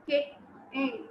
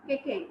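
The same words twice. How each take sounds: First: "kick, in" as two separate beats; diviso in sillabe. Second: Said in the usual way. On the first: Shown as a demonstration. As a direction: split the word: KICK, short pause, IN. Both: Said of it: "The word we divide into a sound".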